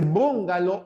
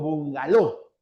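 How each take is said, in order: First: The stress is on the first syllable. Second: The stress is on the last syllable. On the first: "como esdrújula" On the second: "como aguda"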